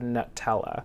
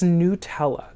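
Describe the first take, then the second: First: The first syllable sounds like the word nut. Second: The first syllable sounds like the word new. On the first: The speaker calls it wrong. "you're supposed to pronounce the nut" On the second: The speaker calls it right. "It's Nutella"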